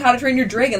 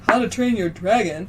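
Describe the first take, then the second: First: Dragon has a raised Wisconsin-style vowel. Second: Dragon has a plain, open general American vowel. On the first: This is how the speaker thought it was said. "I thought they were saying" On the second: This is how the film said it. "when they were like"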